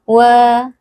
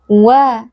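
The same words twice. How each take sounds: First: The w is said with flat, unrounded lips. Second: The w is said with pushed-out rounded lips. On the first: The speaker calls it wrong. "jangan dibaca wa" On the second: The speaker calls it right. "harus kita monyongkan sedikit"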